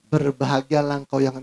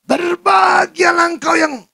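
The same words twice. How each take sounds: First: It is read gently in a soft, calm voice. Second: It is read harshly in a loud, high voice. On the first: The reader has a refined, gentle character. The speaker calls it right. "Pasti tong samcong akan bacanya" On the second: The reader has a rough, shouting character. The speaker calls it wrong. "yang kasar-kasar nada tinggi, ya, maka dia akan bacanya seperti ini"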